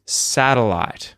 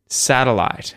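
Both takes have the same delivery.

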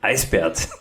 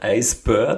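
First: The second part sounds like the name 'Bert'. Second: The second part sounds like English 'bird'. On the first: "sondern Eisbärt ... so wie bei Ernie und Bert" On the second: "Er sagt ihm nicht Eisbird"

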